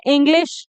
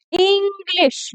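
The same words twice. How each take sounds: First: Said in the usual way. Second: इंग्लिश with a long, high, stretched opening "ee"; drawn-out first vowel. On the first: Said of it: "मैंने सीधा बोला". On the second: Shown as a demonstration. Teacher shows students how not to say it, इंग्लिश with overlong "ee". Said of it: "ये तो नहीं बोला मैंने".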